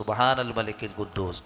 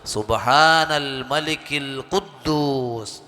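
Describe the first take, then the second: First: It is said short and at normal volume. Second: It is drawn out and said loudly.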